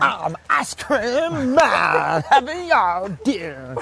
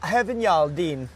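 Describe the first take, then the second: First: Hugely drawn-out playful call; too-loud mock announcement. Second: Slowly sounded-out Welsh phrase; careful Welsh attempt. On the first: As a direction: belt it out, stretching every word, hammed up. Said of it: "I'm too loud". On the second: Shown as a demonstration. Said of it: "so I have to say".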